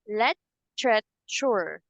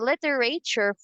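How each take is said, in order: First: The word is said with a British accent. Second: The word is said with an American accent. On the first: "for British English" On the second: "for English"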